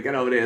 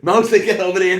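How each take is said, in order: First: Said in the usual way. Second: High, loud call across the room. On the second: Retold or imitated. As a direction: yell to summon a mate from over there. Retold calling friend over.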